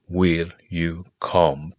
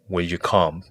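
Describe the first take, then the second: First: It is said with strong, forceful emphasis. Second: It is said plainly, without extra force.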